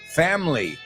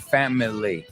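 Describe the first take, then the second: First: It is said with two syllables, dropping the middle vowel. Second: It is said with three syllables, keeping the middle vowel. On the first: The speaker calls it right. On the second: The speaker calls it wrong. "I don't say"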